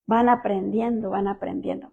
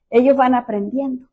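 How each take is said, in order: First: Fading echo. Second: Said in the usual way. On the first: Shown as a demonstration. Repeats phrase, fading away.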